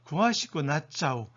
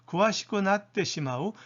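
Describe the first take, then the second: First: The ending is contracted to one short syllable. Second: The ending is said as separate full syllables.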